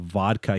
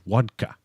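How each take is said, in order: First: The word begins with a V sound. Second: The word begins with a W sound.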